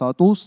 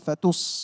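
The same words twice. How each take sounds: First: The t sound is heavy and emphatic. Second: The t sound is thin and light. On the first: The speaker calls it wrong. "ফাতুস না বলে" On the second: The speaker calls it right. "তাটা পাতলা করে"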